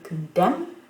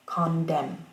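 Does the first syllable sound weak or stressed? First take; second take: weak; stressed. First: The first syllable is weak and unstressed. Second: The first syllable carries a secondary stress. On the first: "au lieu de dire condemn" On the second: "accent secondaire sur con et puis dem, euh, primaire sur le dem"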